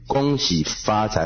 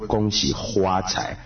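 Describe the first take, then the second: First: The third syllable begins with an f sound. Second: The third syllable begins with an h sound. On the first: "那个发跟花" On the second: "恭喜发财会恭喜花财"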